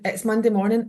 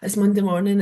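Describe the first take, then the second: First: It sounds cheerful and grateful. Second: It sounds gloomy and complaining.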